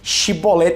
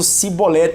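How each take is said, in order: First: The word begins with a sh sound. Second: The word begins with an s sound. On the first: This is how the people of the land say it. The speaker calls it right. "não conseguiam falar a palavra Shibolete" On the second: This marks the speaker as a foreigner. The speaker calls it wrong. "eles faziam Cibolete"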